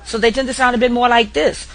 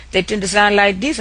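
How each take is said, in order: First: A New Orleans accent with a New York flavour, rising on "this". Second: A light South Louisiana Cajun accent, rising on "this". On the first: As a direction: sound like a New Yorker from New Orleans. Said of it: "more like New Yorkers". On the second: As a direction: show off a Cajun Creole accent. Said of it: "in most cases in Louisiana". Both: Shown as a demonstration.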